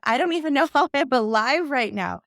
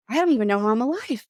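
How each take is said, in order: First: Retold line with a laugh in the middle; half-laughing disbelief at herself. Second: Said in the usual way. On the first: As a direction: laugh through it a little, higher. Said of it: "She said that". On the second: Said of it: "she's like".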